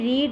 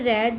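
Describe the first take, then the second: First: The word has a long 'ee' vowel. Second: The word has a short 'e' vowel. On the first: It is the present form. "First form" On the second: It is the past form. "Past tense में रेड हो जाता है"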